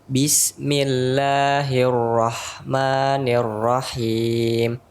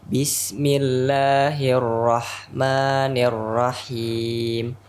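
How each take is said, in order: The two takes are said the same way.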